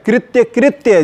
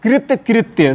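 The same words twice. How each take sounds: First: कृत्य कृत्य with y in both words; wrong form. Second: कृत कृत्य with y only at the end; bare t closing the first half of कृत कृत्य; correct form. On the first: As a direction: say कृत्य कृत्य as kritya-kritya. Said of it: "जबकि शुद्ध क्या है?". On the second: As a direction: say कृत कृत्य as krit-kritya. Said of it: "शुद्ध क्या है?". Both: Shown as a demonstration.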